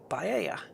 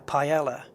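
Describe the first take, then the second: First: It is said with a Spanish pronunciation. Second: It is said with an English pronunciation. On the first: The speaker calls it right. "Well, no, you didn't" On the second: The speaker calls it wrong. "the English people will say"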